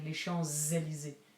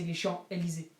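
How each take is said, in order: First: A z sound links Champs to Élysées. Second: No z sound links Champs to Élysées. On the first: The speaker calls it right. "You're saying les Champs-Élysées" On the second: The speaker calls it wrong. "you don't say les Champs-Élysées"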